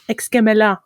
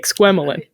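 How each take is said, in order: First: The name is pronounced with a French sound. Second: The name is pronounced with an American sound. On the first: "I think in French it's like Exquemelin" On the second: "we say Exquemelin"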